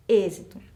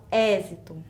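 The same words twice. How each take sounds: First: "êxito" with a closed Ê up front. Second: "êxito" mispronounced with an open É; wrongly open E. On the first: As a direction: keep the first vowel of "êxito" closed. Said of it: "Então, som fechado". ("êxito" com E fechado) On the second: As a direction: open the first vowel of "êxito" to "é". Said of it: "não é um som aberto". ("êxito" com E aberto, errado) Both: Shown as a demonstration.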